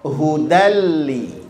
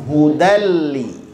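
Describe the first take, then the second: Both takes have the same delivery.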